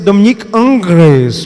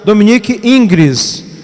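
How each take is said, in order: First: The name is said with French pronunciation. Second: The name is said with Portuguese pronunciation.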